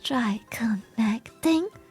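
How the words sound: It is said in a breathy, airy voice. "I was a bit breathy"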